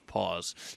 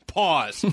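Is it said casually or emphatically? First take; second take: casually; emphatically. First: It is said in a very casual way. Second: It is said with normal emphasis.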